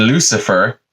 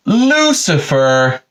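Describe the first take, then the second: First: Said in the usual way. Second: High, long drawn-out name; calling out. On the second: Retold or imitated. God calling into the garden for Lucifer, drawn-out call. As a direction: sing out the name as a sitcom summons.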